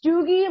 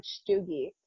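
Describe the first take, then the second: First: Put-on Stoogie? asked high and loud in a mild Filipino accent. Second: Stoogie said with a soft shush sound at the start. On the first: Filipina cashier repeating the dog's name, Filipino accent. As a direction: echo the name back in a Filipino auntie accent. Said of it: "saying it with a Filipino accent". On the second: Shown as a demonstration. Correcting the cashier on her dog's name, shush sound. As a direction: lean into the shush at the front of Stoogie. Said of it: "Stoogie with the shush sound".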